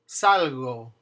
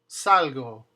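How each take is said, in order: No difference in how they are said.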